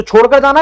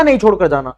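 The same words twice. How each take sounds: First: "छोड़कर जाना" asked with rising pitch; rhetorical question. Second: "नहीं छोड़कर जाना" lower, falling to a close; firm answer. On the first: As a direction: lift "जाना" at the end as a question. Rhetorical question, answered right after. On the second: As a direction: answer your own question, dropping pitch on "जाना". Firm answer to own question. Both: Shown as a demonstration.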